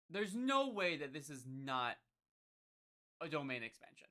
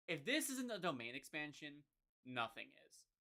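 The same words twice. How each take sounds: First: No way that this is not stressed hard; emphatic insistence. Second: Said in the usual way. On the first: Real, not acted. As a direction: hammer the point home. Insists it is a domain expansion.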